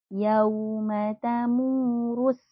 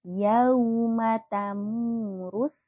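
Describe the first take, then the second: The two takes are said the same way.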